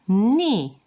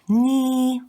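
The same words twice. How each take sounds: First: It is said with the fourth tone. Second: It is said with the first tone. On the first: "the fourth one is ni" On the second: "pronounced with the first accent"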